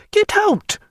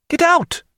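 First: Even higher furious yell; second shout at a servant who won't leave; shouted again. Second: Sharp high yell at a servant; furious shout to a lingering servant. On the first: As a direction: throw him out with the voice. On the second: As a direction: bark him out of the room. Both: A narrator's reading. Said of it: "she shouted at a servant".

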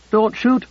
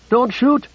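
First: Shouting. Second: Higher, more frantic plea. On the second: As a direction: push the second cry even higher. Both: A narrator's reading. Woman pleads at gunpoint.

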